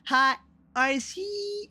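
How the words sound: The words sound choppy, with parts cut out.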